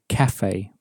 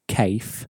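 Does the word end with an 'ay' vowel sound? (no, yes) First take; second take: yes; no. First: The final e is sounded like 'ay'. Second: The final e is not sounded like 'ay'. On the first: The speaker calls it right. "So we say cafe, ... that e on the end has a sort of an a sound" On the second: The speaker calls it wrong. "we don't say cafe"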